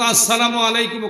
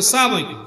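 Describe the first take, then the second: First: Every syllable of the greeting is said in full. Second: The opening is dropped and the words run together. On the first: Peace be upon you. The speaker calls it right. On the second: It becomes a curse on you. The speaker calls it wrong.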